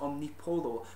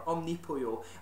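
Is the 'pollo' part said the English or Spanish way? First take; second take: English; Spanish. First: The 'pollo' part is said the English way. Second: The 'pollo' part is said the Spanish way. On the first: The speaker calls it wrong. "a lot of people I've heard have pronounced it Omnipollo" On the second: The speaker calls it right. "pollo, of course, is Spanish for chicken, and that's the correct pronunciation"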